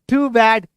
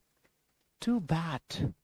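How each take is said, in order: First: It is said in a casual, unconcerned way. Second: It is said in a sad, sympathetic way. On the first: The speaker does not care about the bad news. The speaker calls it wrong. "अब ऐसे नहीं" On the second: The speaker feels sorry about the bad news. The speaker calls it right. "कुछ बुरा हुआ है किसी के साथ तो आपके फेशियल एक्सप्रेशन होना चाहिए"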